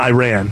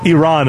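First: It sounds like the words 'I ran'. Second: It starts with an 'ee' sound. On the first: It names a song rather than the country. The speaker calls it wrong. "it's not Iran. That's a song by Flock of Seagulls" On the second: It names the country. The speaker calls it right. "Iran is the country that we're speaking"

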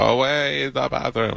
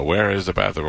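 First: It is said in a put-on foreign accent. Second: It is said in a plain, ordinary accent.

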